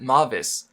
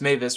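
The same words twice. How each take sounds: First: The first syllable sounds like the Japanese 'ma'. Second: The first syllable does not sound like 'ma'. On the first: It follows the reading of the written name. The speaker calls it wrong. "I pronounced it like the Japanese syllable M A, ma" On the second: It follows how the name is said aloud in the show. The speaker calls it right. "apparently it's pronounced Mavis"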